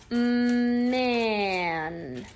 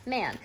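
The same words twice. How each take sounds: First: MAN stretched out, long humming "Mm" into "man"; said slow. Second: "man" as one short, quick word; said fast. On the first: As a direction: hold the M, then drag out "man". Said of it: "they say that slow". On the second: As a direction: say "man" quickly, no held sounds. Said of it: "then they say it fast". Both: Shown as a demonstration.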